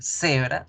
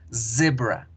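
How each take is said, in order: First: The first consonant is a hissing s sound. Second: The first consonant is a buzzing z sound. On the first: The speaker calls it wrong. "no vamos a decir cebra" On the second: The speaker calls it right. "sino decimos zebra"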